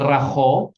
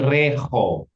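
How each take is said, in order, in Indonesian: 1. Vokal pertama terdengar seperti 'a'. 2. Vokal pertama terdengar seperti 'e'. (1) "Ini bukan raho" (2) "tapi reho"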